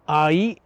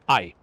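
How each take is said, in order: First: The vowels are split into two separate syllables. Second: The vowels blend into a single syllable. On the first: The speaker calls it right. "Ai is two syllables. Now I've over enunciated that" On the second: The speaker calls it wrong. "to a Western ear sounds like I. That's one syllable"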